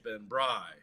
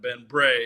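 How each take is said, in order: First: The surname's vowel rhymes with 'rye'. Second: The surname's vowel rhymes with 'day'. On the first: The speaker calls it right. "it's Ben Bry" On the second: The speaker calls it wrong. "it's not Ben Bray"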